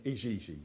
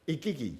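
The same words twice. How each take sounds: First: Igigi said with soft G's, like ee-zhee-zhee; "Igigi" with soft zh sounds, ih-ZHEE-zhee. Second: Igigi with hard G's, ih-GEE-gee; "Igigi" with hard G's, ih-KEE-gee. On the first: Explaining his reading, soft-G Igigi. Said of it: "that's how that should be pronounced". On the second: Quoting YouTube pronunciation, hard-G Igigi. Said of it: "people were pronouncing it Igigi". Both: Shown as a demonstration.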